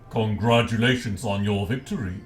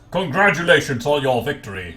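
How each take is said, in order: First: It is said in a deep voice. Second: It is said in a normal voice.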